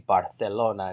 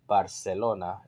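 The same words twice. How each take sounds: First: The 'c' is said like English 'th'. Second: The 'c' is said like English 's'. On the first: The speaker calls it right. "that's why you say Barcelona" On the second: The speaker calls it wrong. "instead of Barcelona"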